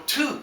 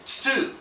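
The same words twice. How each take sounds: First: TU said as too, with a simple t; a clean too for tu; plain tu sound. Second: TSU with a ts at the start, higher; tsu sound. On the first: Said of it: "there's no tu sound in Japanese". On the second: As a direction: hiss the s after the t in tsu. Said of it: "It's tsu". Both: Shown as a demonstration.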